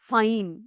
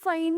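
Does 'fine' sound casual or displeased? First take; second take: displeased; casual. First: The word sounds curt and unhappy. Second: The word sounds relaxed and agreeable. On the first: The speaker reluctantly goes along with it. "ഞാനത് കേട്ടത് ഫൈൻ എന്ന്" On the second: The speaker simply agrees. "നീ വെറുതെ okay ഫൈൻ എന്നുള്ള മട്ട് ആയിരുന്നു നിന്റെ ഉദ്ദേശം"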